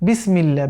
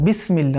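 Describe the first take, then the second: Both takes have the same delivery.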